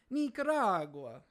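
It is said in an Italian accent.

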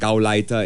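The word is said with a German pronunciation. The speaker calls it wrong. "not in the German accent"

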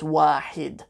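The second syllable has the vowel i. This is the formal standard form. "but in Fusha it's always wahid"

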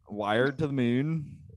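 The phrase is said in an Irish accent.

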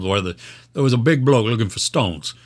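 It is said in an exaggerated put-on British accent.

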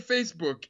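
The word ends cleanly on the k sound. "They don't say Facebook"

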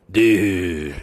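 It sounds disappointed, like you blew it.

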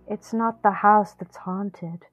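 It is acted out dramatically.

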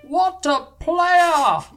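It is said in an imitated commentator voice.

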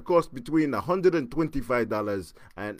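It is said in a put-on Russian accent. "I'm gonna try a really bad Russian accent here"

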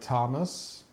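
The name is said the American way. "In America, I guess it's like"

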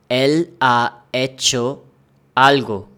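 Each word is said separately with breaks.

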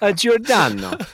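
The name is said in an Italian accent. "Italian accent"

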